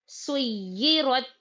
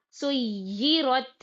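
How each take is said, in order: Both takes have the same delivery.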